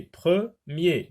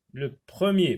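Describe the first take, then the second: First: "premier" broken into pre, then mier; "premier" syllable by syllable, firmly; split into syllables. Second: Said in the usual way. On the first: Shown as a demonstration. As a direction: say "premier" in two separate beats. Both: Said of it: "deux syllabes".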